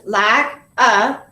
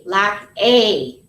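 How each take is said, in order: First: "lack, a" with A said "uh"; schwa as heard. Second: "lack a" with A as a long "ay"; slow "lack a", full letter-name vowel on A; thinking pronunciation. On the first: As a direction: separate "lack" and "a", the A a punched schwa. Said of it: "that's a schwa sound". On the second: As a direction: draw out the "a" after "lack" as "ay". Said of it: "We're gonna think". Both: Shown as a demonstration.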